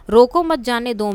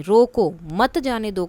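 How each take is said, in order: First: "रोको मत" run together, then "जाने दो"; group it as "रोको मत, जाने दो"; मत के बाद अल्प विराम. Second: "रोको", pause, then "मत जाने दो"; रोको के बाद विराम. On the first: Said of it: "रोको मत के बाद अल्प विराम". ("रोको मत" को जोड़कर बोलें) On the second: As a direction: stop after रोको, group "मत जाने दो". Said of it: "अब रोको के बाद लगा दिया". ("रोको" पर रुककर "मत जाने दो") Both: Shown as a demonstration.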